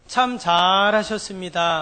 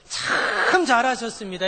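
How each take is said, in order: First: The first word is said short and plain. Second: The first word is drawn out long.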